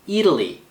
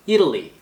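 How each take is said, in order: Both takes have the same delivery.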